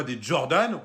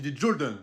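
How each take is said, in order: First: Said in the usual way. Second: French speaker putting on American pronunciation; American accent. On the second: Shown as a demonstration. Correcting a sibling on sneaker names, American accent. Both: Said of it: "il faut dire l'accent américain".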